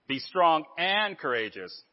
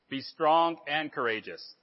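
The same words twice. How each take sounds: First: It is said with strong, forceful emphasis. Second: It is said plainly, without extra force.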